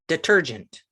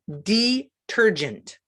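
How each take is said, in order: First: The first vowel is a weak, short sound. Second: The first vowel is a long E sound.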